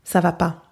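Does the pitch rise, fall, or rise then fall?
fall. The pitch falls at the end.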